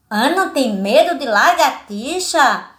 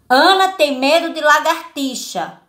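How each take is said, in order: First: It is said as a rising question. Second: It is said as a plain, falling statement.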